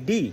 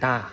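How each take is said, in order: First: The word ends in a long 'ee' vowel. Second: The word ends in a short 'uh' vowel. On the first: The next word starts with a vowel. "যখন vowel দিয়ে শুরু হবে ... তখন তার উচ্চারণ হবে ডি" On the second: The next word starts with a consonant. "Consonant দিয়ে শুরু হয় ... তখন তার উচ্চারণ হবে ডা"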